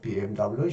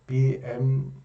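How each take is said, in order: First: The letters are spoken with English pronunciation. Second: The letters are spoken with German pronunciation. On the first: "영어로 비엠더블유" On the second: "비엠페 독일식 발음으로"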